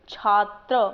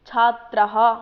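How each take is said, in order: First: Said in the usual way. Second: छात्रः said louder, with a clear breathy "ha" at the end; visarga pronounced. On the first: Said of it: "छात्र बोला तो पीछे किसकी ध्वनि आ रही है". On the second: Shown as a demonstration. Teacher to students demonstrating the ending, a louder छात्रः with audible visarga. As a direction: stress the final visarga of छात्रः as "chhatrah". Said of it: "पुल्लिंग शब्द हैं ये सारे और अकारांत है".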